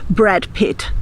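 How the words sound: The name is said with English sounds. The speaker may come across as a bit snobbish. "você não vai escutar os seus amigos brasileiros dizendo"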